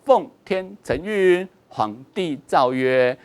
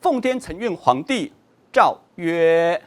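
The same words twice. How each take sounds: First: The pause comes after chengyun. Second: The pause comes after huangdi.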